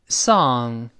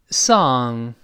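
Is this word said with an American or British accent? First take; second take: American; American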